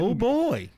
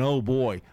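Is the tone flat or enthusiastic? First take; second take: enthusiastic; flat. First: It is said with lively, enthusiastic inflection. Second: It is said flatly, without enthusiasm.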